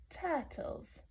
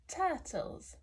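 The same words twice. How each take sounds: The two takes are said the same way.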